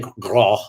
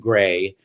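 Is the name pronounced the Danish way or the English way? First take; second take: Danish; English. First: The name is said with a Danish vowel. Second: The name is said like English gray. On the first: This is how it is said in Danish. "they say "Grå" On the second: This is the changed, anglicized form. "changed my name to the pronunciation to Gray"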